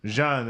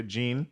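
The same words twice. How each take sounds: First: "Jean" said the French way, "zhahn"; corrected pronunciation. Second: "Jean" said like "jeen", unsure and rising; unsure pronunciation. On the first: Host accepts cohost's fix, says "Jean" as "zhahn". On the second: Host unsure of the name, tries "Jean" as "jeen". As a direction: guess "Jean" as "jeen" with a questioning lift. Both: Real, not acted.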